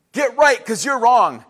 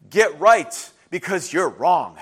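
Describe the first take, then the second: First: Louder, slow, punched delivery; forceful pronouncement. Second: Slow, low, weighty delivery; slow pronouncement. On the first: Preacher repeating God's paraphrased message, louder and forceful. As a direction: drive it home firmly at full voice. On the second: Prophets delivering God's message to his people, slow and low. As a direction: lay it down slowly, pitch dropped. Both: Acted.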